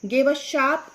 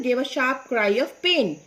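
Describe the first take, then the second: First: Said in the usual way. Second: Very slow, pain stressed and falling. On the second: Shown as a demonstration. Teacher reading slowly to class, stressing pain. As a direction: lean on pain, let it drop. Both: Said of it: "देखो यहाँ लिखा है ना".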